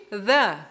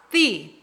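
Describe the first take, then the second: First: "the" with a short uh vowel; "the" as thuh. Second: "the" with a long ee vowel; "the" as thee. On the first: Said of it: "Som de consoante". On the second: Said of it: "Som de vogal". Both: Shown as a demonstration.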